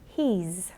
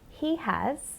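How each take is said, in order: First: The two words are contracted, ending in a z sound. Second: Both words are said in full, uncontracted.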